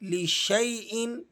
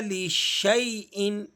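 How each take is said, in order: First: An 'ay' diphthong follows the 'sh'. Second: The same.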